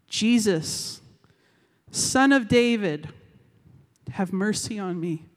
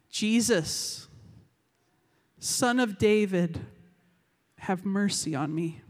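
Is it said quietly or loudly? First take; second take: loudly; quietly. First: It is said more loudly. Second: It is said fairly quietly.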